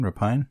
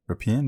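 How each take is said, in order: First: "Rapine" said ra-PINE, as a question; pronunciation variant. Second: "Rapine" said ra-PEEN, as a question; pronunciation variant. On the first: Co-host comparing two pronunciations, "Rapine" as a questioning ra-PINE. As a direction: say "Rapine" to rhyme with pine, rising. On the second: Co-host comparing two pronunciations, "Rapine" as a questioning ra-PEEN. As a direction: say "Rapine" with an EE sound, rising. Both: Shown as a demonstration. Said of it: "heard it pronounced both ways".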